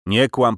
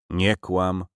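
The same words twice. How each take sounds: First: Louder angry repeat. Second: Said in the usual way. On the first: Acted. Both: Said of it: "parszywy Cyganie".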